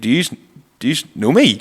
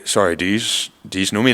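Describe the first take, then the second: First: It sounds genuinely surprised and shocked. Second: It sounds haughty and dismissive.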